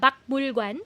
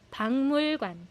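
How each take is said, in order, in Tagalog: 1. Ang unang pantig ay nagtatapos sa matigas na tunog na k. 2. Ang unang pantig ay nagtatapos sa nasal na tunog na ng. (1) "hindi siya bakmul관" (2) "nagne-nasalize po siya"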